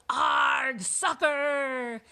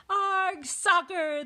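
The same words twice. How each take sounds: First: Loud, high pirate war cry; pirate yell. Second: High, loud echoed cry; crew yelling. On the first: Captain kicks the ball, yelling. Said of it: "kicked the ball and yelled". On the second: Crew follows captain into the game, high yell. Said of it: "the crew yelled". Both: A narrator's reading.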